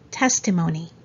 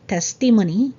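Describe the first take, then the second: First: The stress falls on the first syllable. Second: The stress falls on a later syllable. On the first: The speaker calls it right. "So there's a stress on the first syllable" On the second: The speaker calls it wrong. "it's not testimony"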